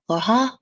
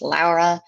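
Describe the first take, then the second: First: The name is said with a French accent. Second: The name is said with a Spanish accent. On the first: "like in French, it's Laura" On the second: "Spanish is Laura"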